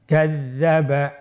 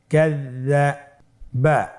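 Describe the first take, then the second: First: কাযযাবা as one connected word, doubled z held; syllables joined. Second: কাযযাবা very slow, with a gap before বা; syllables separated. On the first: Teacher rejoins the word for learners, connected recitation. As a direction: blend কাযযাবা smoothly without gaps. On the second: Teacher leads learners without spelling, slow separated syllables. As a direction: hold each part of কাযযাবা apart. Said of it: "পৃথক করে আমরা উচ্চারণ করব". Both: Shown as a demonstration.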